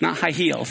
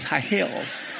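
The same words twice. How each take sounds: First: "heels" said with a long ee as in feet; wrong word heels. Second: "hills" said with a short i as in sit; right word hills. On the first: Teacher showing the wrong word, saying "heels" with a long ee. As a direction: stretch "heels" to a clear heel sound. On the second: Teacher correcting himself, saying "hills" with a short i. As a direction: keep the i in "hills" short and crisp. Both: Shown as a demonstration. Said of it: "Hills, not heels".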